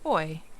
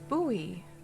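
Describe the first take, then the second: First: The word is said the British way, like boy. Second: The word is said the North American way. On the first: "I was doing the U K version"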